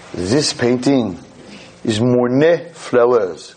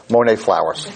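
First: Slow, lightly French "Monet flowers" said "mɔɹne flɛləz"; mock French accent. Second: Said in the usual way. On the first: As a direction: present it like a grand French guide. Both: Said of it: "For all those who don't speak French".

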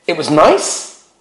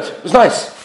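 First: "It was nice?" drawn out slowly, rising as a question; slow questioning repeat of "It was nice?"; incredulous echo. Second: Casual, noncommittal reply; brief husbandly shrug of an answer; offhand man's answer. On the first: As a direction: stretch "nice" upward in disbelief. Wife disbelieving husband's short answer. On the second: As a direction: toss it off as all there is to say. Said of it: "such a man's reaction". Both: Retold or imitated.

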